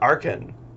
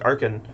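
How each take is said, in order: First: The stress is on the second syllable. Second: The stress is on the first syllable. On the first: "If it's An, you've got like a little more emphasis on it" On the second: "with all the emphasis on the first syllable"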